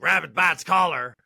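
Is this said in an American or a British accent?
American. It is said in a plain American accent. It sounds aggressive.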